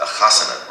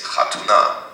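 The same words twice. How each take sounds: First: "chasana" with a throaty ch and open vowels; Yiddish chasana. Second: "chatuna" said crisply, the modern Hebrew way. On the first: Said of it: "How do you say?". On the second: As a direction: give "chatuna" the Israeli sound. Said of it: "modern Hebrew, I should say". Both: Shown as a demonstration.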